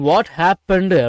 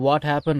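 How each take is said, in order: First: The final -ed ending is pressed hard and clearly heard. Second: The final -ed ending is dropped and barely heard. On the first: The speaker calls it wrong. "இந்த இண்டு அது கேட்கணும்னு சொல்லிட்டு ரொம்ப அழுத்தி எல்லாம் பேசிட்டு இருக்காதீங்க" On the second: The speaker calls it right. "What ஹேப்பன் அப்படின்னு பேசினாலே"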